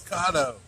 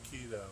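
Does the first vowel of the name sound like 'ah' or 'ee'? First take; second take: ah; ee. First: The first vowel sounds like 'ah'. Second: The first vowel sounds like 'ee'. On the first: The speaker calls it right. "It's Kato" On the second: The speaker calls it wrong. "I've been saying it wrong. I keep saying keto"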